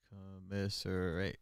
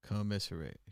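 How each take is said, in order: First: "Commiserate" drawn out slowly and softly; sounding it out. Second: Said in the usual way. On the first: Real, not acted. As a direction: stretch "Commiserate" syllable by syllable, under your breath. Sounding out word to spell it.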